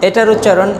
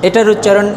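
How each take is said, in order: Both takes have the same delivery.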